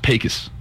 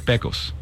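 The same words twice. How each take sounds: First: The name is said the local Texan way. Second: The name is said the Spanish way. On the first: This is how people in the town say it. "It's how they say it there" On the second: This is how it would be said in Spanish. "in Spanish, you would say Pecos"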